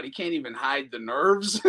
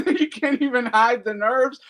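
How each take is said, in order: First: Said in the usual way. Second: Laughing retake, louder and higher. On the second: Real, not acted. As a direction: crack up while repeating it. Repeats line, laughing and louder.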